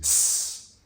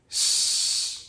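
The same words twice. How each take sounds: First: A plain, sharp s with the tongue forward. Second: A retracted s sounding somewhat like sh. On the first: "a normal English S sound" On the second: "the retracted S is going to be like this"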